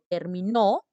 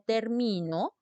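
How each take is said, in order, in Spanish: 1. El acento cae en la última sílaba. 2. El acento cae en la sílaba del medio. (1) "si digo terminó es aguda" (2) "si dice termino es grave"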